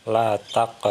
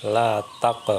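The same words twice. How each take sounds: The two takes are said the same way.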